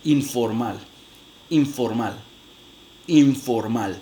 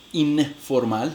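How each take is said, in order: First: "informal" with the n made lip-to-teeth into the f; labiodental n in informal. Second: "informal" with a plain tongue-tip n before the f; alveolar n in informal. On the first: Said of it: "yo voy a decir informal". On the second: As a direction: say "informal" keeping the tip n, slow. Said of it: "yo en lugar de, de hacer in". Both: Shown as a demonstration.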